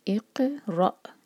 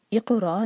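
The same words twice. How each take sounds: First: इक़रा slow, क़ stopped short; recitation demo. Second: इक़रा with a vowel after क़, louder; wrong version. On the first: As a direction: recite इक़रा with a clean stop. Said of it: "तब हम हमज़तुल वस्ल पर कसरा लगाते हैं". (इक़रा सुकून के साथ) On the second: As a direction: mispronounce इक़रा on purpose. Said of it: "इक़रा नहीं है". (ग़लत इक़रा) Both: Shown as a demonstration.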